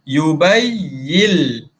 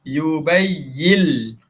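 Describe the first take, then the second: No difference in how they are said.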